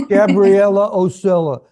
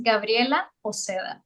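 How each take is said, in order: First: "Gabriela Oceda" loud, in anglicized American vowels; American-accented attempt. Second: "Gabriela Oceda" with a tapped r and soft Spanish d; native Spanish pronunciation. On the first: Host clumsily copies the guest's name, American-accented attempt. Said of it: "That's, that's my accent". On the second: Guest says her own name for the host, native Spanish pronunciation. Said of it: "say your name in your beautiful accent". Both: Shown as a demonstration.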